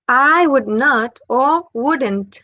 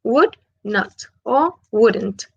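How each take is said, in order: First: Slow, careful I would not, then wouldn't; slow contrast of full and contracted form. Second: Slow, careful Would not, then wouldn't; slow contrast of full and contracted form. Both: Shown as a demonstration. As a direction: spell out the contraction slowly. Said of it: "Es como una contracción".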